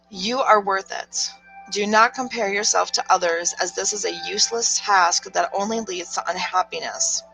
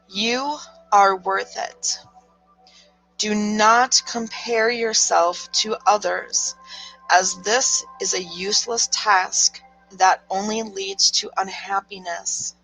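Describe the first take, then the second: First: It is read in her normal voice. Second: It is read in a stern mom voice.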